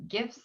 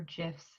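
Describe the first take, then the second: First: "gifs" with a hard g, as in gift; hard-g pronunciation. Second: "gifs" said like "jifs"; soft-g pronunciation. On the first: Showing viewers what can be inserted, "gifs" with hard g. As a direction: say "gifs" starting with a hard g sound. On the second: Offering viewers the other pronunciation, "gifs" with soft g. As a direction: say "gifs" starting with a j sound, as in jet. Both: Shown as a demonstration. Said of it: "however you say it".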